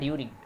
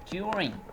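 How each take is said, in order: First: The first sound is a plain d sound. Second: The first sound is a j-like sound. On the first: The speaker calls it wrong. "It's not during" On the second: The speaker calls it right. "there must be some kind of j and u sound would be there"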